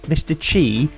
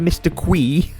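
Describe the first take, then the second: First: The name starts with a ch sound, chee. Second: The name starts with a kw sound, kwee. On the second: "but never Mister Quee"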